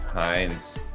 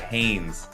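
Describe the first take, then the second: First: The name's vowel sounds like 'eye'. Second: The name's vowel sounds like 'ay'. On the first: "Is that is that pronounced correctly" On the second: "or is it Haynes?"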